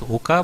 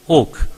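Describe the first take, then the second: First: The name ends with an added 'a' vowel. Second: The name ends on the 'k' sound. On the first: This is how many people say the name. "many pronounce as Oka" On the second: This is how people in the home region say the name. "in Maharashtra they pronounce him as Oak"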